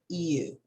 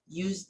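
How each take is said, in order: First: It begins with a smooth vowel-like glide. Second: It begins with a buzzing j-like consonant. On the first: The speaker calls it right. "you just say you... you call it as a vowel sound" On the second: The speaker calls it wrong. "Instead of saying you, you, the beginning of the sound is not a z tone"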